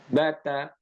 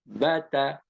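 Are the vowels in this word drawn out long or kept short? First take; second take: short; short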